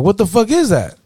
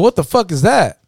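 First: High-pitched baffled question, hit IS; mock bafflement with IS punched high; stress on IS. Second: High-pitched baffled question, WHAT leading; mock bafflement, pitched up. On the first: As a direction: lean on "is" and let it fall away. Baffled friend asks again, more insistent. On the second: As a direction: act out a friend asking what on earth. Baffled friend's first acted question.

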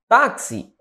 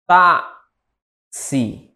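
First: Said in the usual way. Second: "Táxi" split as tá, long pause, si; syllable-by-syllable demo. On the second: Shown as a demonstration. Teacher asking for the stressed syllable of táxi, split by syllable. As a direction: break "Táxi" after the stressed tá. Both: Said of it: "Qual é a sílaba tônica?".

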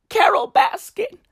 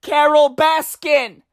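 First: High breathy whisper of the name. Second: Said in the usual way. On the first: Acted. Vlogger to fans, whispering the name. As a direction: hiss the name like a secret.

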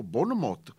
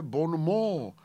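First: Bonmot with the t sounded; wrong pronunciation. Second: Bonmot in French, silent t; correct pronunciation. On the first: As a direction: say bonmot ending in a clear t. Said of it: "to se správně vyslovuje". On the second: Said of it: "správně vyslovuje bonmot". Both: Retold or imitated.

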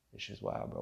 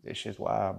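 First: Breathy hushed aside; whispered. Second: Said in the usual way. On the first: Real, not acted. Vlogger repeating to himself in a whisper. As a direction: let it fade to a whisper.

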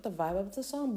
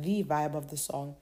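First: Said in the usual way. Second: "the" said as a full "thee" before vibe; stress on THE. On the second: Real, not acted. Reviewer qualifying her opinion of the song, stress on THE as "thee". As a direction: lean on "the", pronounced "thee". Correcting her own wording.

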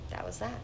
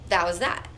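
First: Much softer, repeated under her breath; quiet echo. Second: Said in the usual way. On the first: Real, not acted. Echoing herself after the story ends, much softer. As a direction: murmur it to yourself as an afterthought. Muttered echo of own line.

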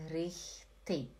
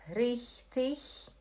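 First: "richtig" clicked off with a final K; lower, softer "richtig" as "rich-tik"; second option richtig. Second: "Richtig" with hissing CH at the end; slow "Richtig" as "rich-tich"; first option richtig. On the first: Teacher repeating both options, K-ending "richtig". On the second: Teacher repeating both options, CH-ending "richtig". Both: Shown as a demonstration. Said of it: "tem duas opções".

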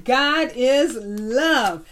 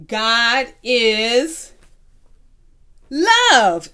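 First: "God is love" very slow, each word separate; slow confirming repeat. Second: "God is" then a loud, ringing "love"; say it together. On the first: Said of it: "That's right". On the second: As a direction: land "love" loud for the class to echo. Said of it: "Say it with me". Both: Shown as a demonstration.

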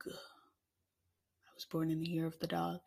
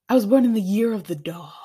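First: Softer, slower, lower take. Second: Said in the usual way. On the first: Shown as a demonstration. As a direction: drop it low and slow. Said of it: "repeated in other voice". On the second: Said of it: "repeated line".

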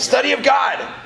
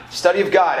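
First: Pitched up, approving repeat of the answer; higher, eager affirmation; excited echo. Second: Said in the usual way. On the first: Real, not acted. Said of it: "congregation answer echoed". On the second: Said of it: "repeated calmly".

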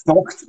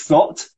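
First: THOCHT with a throaty CH before the T; throaty Scots sound. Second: Said in the usual way. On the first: Shown as a demonstration. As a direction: scrape the CH in THOCHT at the back of the throat. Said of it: "that would be the back of the throat". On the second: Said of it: "thocht, which is thought".

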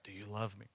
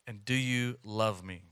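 First: Soft hushed whisper, barely voiced. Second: Said in the usual way. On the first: Preacher voicing Jesus whispering to us, hushed. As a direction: whisper it gently like a secret. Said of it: "he whispers that to us". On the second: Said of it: "the last questions that Jesus asked".

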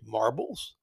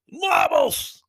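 First: Lower, softer confused echo; puzzled question. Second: Much higher, loud indignant yell; outraged shout. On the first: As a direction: ask it baffled, half to yourself. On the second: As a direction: explode at the insult. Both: Retold or imitated. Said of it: "And the guy goes".

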